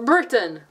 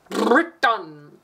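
First: Said in the usual way. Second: "Britain" with a long rolled R; "Britain" said showily, trilled R and drawn-out ending; exaggerated pronunciation. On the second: Shown as a demonstration. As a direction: roll the R hard at the start of "Britain". Repeats word with showy pronunciation.

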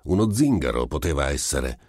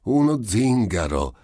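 First: Measured, tentative guess; controlled, noncommittal answer; guarded, careful. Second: High, loud exclamation; raised-pitch, mocking disbelief; amused cry. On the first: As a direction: offer it cautiously, wary of a trap. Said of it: "controllando le parole per il presentimento". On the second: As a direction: cry out as if hugely entertained. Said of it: "gridò il medico mettendosi a ridere". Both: A narrator's reading.

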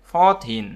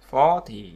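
First: Put-on "fourteen" with the weight on -teen; teacher's careful "fourteen", end-stressed. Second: "forty" with the weight on the first syllable; teacher's careful "forty", front-stressed. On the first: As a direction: lean on the second syllable of "fourteen". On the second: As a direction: lean on "for" in "forty", drop -ty. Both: Shown as a demonstration. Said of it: "khác nhau đúng không".

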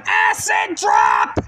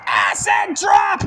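First: Drawn-out call, pitched high; higher stretched-out shout. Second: Slow, drawn-out hype call; stretched-out call. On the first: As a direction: stretch the name and yell it higher. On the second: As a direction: drag out the move's name. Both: Acted. Calling the finisher.

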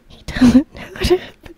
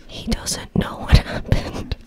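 First: Louder and higher. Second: Breathy whisper. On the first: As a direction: say it out loud, bright. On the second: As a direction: say it under your breath. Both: Acted. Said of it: "Try to be as natural as possible".

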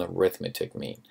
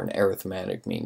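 First: "arithmetic" as uh-RITH-muh-tic; "arithmetic" said like the noun, uh-RITH-muh-tic; stress on second syllable. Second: "arithmetic" as air-ith-MET-ic; "arithmetic" said like the adjective, air-ith-MET-ic; stress on third syllable. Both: Shown as a demonstration. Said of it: "how some people pronounce it".

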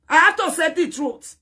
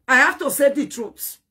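First: The repeat pitched higher and louder on "have"; emphatic repeat. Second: Said in the usual way. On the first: Real, not acted. Scolding Juliet, insisting on the truth with a raised emphatic voice.

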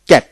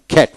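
First: Said in the usual way. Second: "খ্যাট" with a puff of air after the K; phonetic aspirated K. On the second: Shown as a demonstration. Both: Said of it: "ফোনেটিক্সে খ্যাট".

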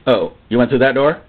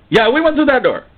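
First: Low, wary question rising at the end; low-pitched doubtful question; disapproving questioner. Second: High, eager confirmation falling at the end; high-pitched assertive reply; defiant answerer. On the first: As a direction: ask it with restrained disapproval. Acted church leader questions the man. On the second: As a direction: answer back brightly and unapologetically. Acted man answers the church leader. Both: Acted.

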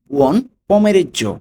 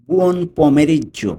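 First: Buon pomeriggio drawn out slowly with higher pitch. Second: Drawn out very slowly, each sound clear; slow teaching demo. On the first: (ধীর ও উঁচু স্বরে উচ্চারণ) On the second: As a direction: stretch Buon pomeriggio out for learners. (ধীরে ধীরে স্পষ্ট উচ্চারণ) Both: Shown as a demonstration.

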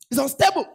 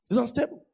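First: Higher and louder, hammered home; ringing pulpit cry; preaching call. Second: Said in the usual way. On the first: Acted. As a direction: call it out to the church. Preaching climax.

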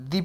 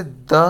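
First: "the" said as "thee" with a long ee; "the" pronounced "thee" before a vowel. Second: "the," said as "thuh" with a short schwa; consonant-form article "the," as "thuh"; "the" before a consonant. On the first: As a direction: say "the" as "dee", vowel-form article. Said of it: "स्वर के शुरू होने से, होने वाले शब्द के पहले जब the". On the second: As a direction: say "the," as "duh", short and weak. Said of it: "consonant से शुरू होने वाले". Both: Shown as a demonstration.

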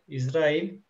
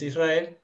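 First: "Israel" said the Turkish way, ending in "-il"; Turkish pronunciation. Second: "Israel" said the Spanish way, ending in "-el"; Spanish pronunciation. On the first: Teacher models the Turkish country name, Turkish pronunciation. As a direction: say "Israel" as Turkish "İsrail", rising at the end. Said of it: "Entonces, en español es Israel". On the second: Teacher gives the Spanish name for contrast, Spanish pronunciation. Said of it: "en español es Israel". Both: Shown as a demonstration.

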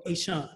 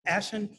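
First: Ashan as ay-SHAHN; Ashan: ay-SHAHN, weight on the end; second pronunciation of Ashan. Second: Ashan as ASH-un; Ashan: ASH-un, weak second syllable; first pronunciation of Ashan. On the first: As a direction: say Ashan with an open "ah" in the last syllable. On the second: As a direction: say Ashan with stress up front, short "a" as in ash. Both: Shown as a demonstration. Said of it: "pronouncing your name correctly".

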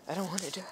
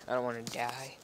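First: Breathy mock whisper. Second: Said in the usual way. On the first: Whispered repeat. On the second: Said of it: "repeated as whisper".

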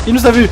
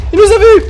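First: Alarmed cry. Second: Much higher and louder shriek; hammed-up terror, shrieking; panicked scream. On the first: Acted. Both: Godzilla spotted them.

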